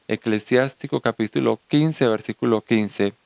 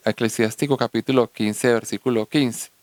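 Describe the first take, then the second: No difference in how they are said.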